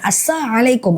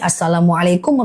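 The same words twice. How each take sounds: First: The greeting is said without its l sound. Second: The greeting is said with its l sound. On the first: It means a curse on the listener. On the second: A proper wish of peace.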